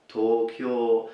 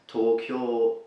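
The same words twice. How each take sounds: The two takes are said the same way.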